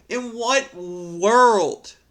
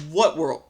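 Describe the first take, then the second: First: "In what world?" stretched very slow, higher and louder, weight on "what"; drawn-out disbelief. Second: Said in the usual way. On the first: Real, not acted. Vlogger asking the poster, in slow drawn-out disbelief. Incredulous rant at Reddit poster.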